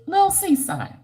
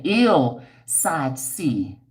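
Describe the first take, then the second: First: "Lil Seaside" high and slow; misread name. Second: "Ill Side C" very slow, careful; corrected name. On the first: Reading a viewer's name wrong, high and slow. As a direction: read "Lil Seaside" as it first looks. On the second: Correcting a viewer's name, very slow and careful. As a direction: drag out "Ill Side C" to fix it. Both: Real, not acted. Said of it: "I mean, wait".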